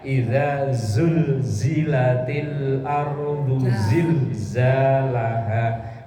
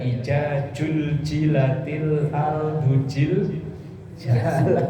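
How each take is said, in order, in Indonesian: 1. Huruf-huruf itu dilafalkan dengan bunyi z yang jelas. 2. Huruf-huruf itu dilafalkan dengan bunyi j.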